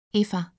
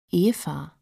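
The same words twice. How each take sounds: First: Said in the usual way. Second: "Eva" with the E stretched very long; long drawn-out E. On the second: A narrator's reading. Boy teasing girl about her name, "Eva" with a long-held E. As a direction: draw out the first vowel of "Eva", lower. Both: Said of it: "Er dehnte das E ganz lang".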